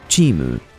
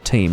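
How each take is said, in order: First: It is pronounced the Japanese way, ending in mu. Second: It is pronounced as the English word. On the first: "they say Chimu" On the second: "let's not start saying Cheem instead of team"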